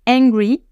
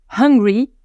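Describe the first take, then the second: First: "Angry" begun straight on the vowel, rising end; careful, lifted "Angry", vowel first; no initial H. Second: "Hungry" with breathed H and rising end; careful, lifted "Hungry", H aspirated; sounded H. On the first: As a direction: demonstrate "Angry" without any H. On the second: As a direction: demonstrate "Hungry" with a clear puff of H. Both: Shown as a demonstration. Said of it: "pas totalement les mêmes sons".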